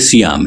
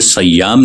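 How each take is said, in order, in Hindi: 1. इसकी शुरुआत 'si' से होती है और y इकहरा है। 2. इसकी शुरुआत 'sa' से होती है और y दोहरा है। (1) "ये माह सियाम है" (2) "पहले हर्फ यानी स्वाद पर ज़बर नहीं है, ज़ेर है, और इसके बाद तशदीद नहीं है, यानी ये सयाम नहीं है"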